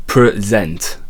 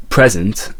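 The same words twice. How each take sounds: First: "present" as the verb, pre-ZENT, slowly split; stress on second syllable. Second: "present" as the noun, PREZ-ent; stress on first syllable. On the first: Teacher demonstrating the verb to songwriters, "present" stressed pre-ZENT. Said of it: "the inflection goes up at the end". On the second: Teacher contrasting noun with verb, "present" stressed PREZ-ent. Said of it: "louder at the start and higher in pitch". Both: Shown as a demonstration.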